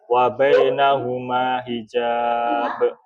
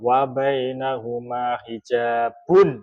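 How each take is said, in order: First: The last word drops its final ending. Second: The last word keeps its full final ending. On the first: The reading stops here. "Kedua, dibaca waqaf" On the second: The reading continues without stopping. "Satu kali dibaca, dibaca wasol atau dibaca semua harakatnya"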